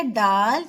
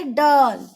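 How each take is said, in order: First: डाल with a plain open आ. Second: डॉल with a rounded ऑ like English doll. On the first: Teacher contrasts डाल for pupils, open a. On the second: Teacher contrasts डॉल for pupils, rounded vowel. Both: Shown as a demonstration. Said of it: "उच्चारण बदल जाता है".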